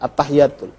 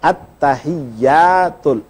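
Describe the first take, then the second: First: The t and y sounds are short and single. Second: The t and y sounds are held and doubled. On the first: The speaker calls it wrong. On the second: The speaker calls it right. "Yang benar at-tahiyyatul. Ada sabdu di atas ta, ada sabdu di atas ya"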